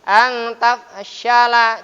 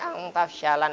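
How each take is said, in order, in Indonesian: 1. Kata terakhir berakhir dengan vokal biasa. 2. Kata terakhir berakhir dengan bunyi n. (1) "tapi ang tafshala" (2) "tidak boleh ang tafshalan lagi"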